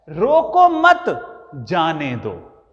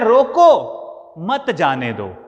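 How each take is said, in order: First: There is a pause after mat. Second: There is a pause after roko.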